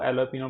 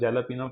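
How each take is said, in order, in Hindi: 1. यह शब्द नरम H ध्वनि से शुरू होता है। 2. यह शब्द कड़ी J ध्वनि से शुरू होता है। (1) "इसको एलोपिनो पढ़ा जाता है" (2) "मैंने इसको जेलापिनो पढ़ा"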